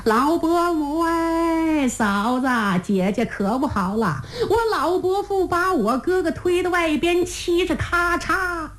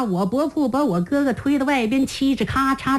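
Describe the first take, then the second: First: Calling out. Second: Said in the usual way. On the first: Acted. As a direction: call it long and high across the tent. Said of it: "所以江须到的后帐才喊".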